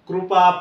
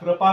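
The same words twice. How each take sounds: First: The first syllable has a clear 'ru' sound. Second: The first syllable lacks a clear 'ru' sound. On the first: The speaker calls it right. "रो उच्चार करायला शिका त्याचा" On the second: The speaker calls it wrong. "कृपा कृपा म्हणतात काही जण, त्यामुळे आणखी फसतात"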